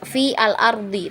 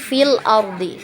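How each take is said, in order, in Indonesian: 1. Huruf 'a' pada 'al' dilafalkan terpisah. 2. Huruf 'a' pada 'al' dilewati dan disambung. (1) "kita tidak baca"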